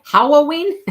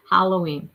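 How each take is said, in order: First: Halloween as "HOW-oh-ween", high and loud; questioning Halloween, starting like howdy, loud; howdy-style pronunciation. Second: Said in the usual way. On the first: Shown as a demonstration. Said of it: "How, like howdy". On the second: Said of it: "I say Halloween".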